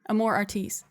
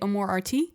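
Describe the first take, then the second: First: The name is said with an American pronunciation. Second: The name is said with a French pronunciation. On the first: "I would say it Amor Artis" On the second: "If I'm being super French about it"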